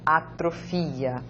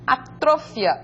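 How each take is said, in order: First: It is read with Portuguese stress placement. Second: It is read with Spanish stress placement. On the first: "en portugués" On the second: "en español"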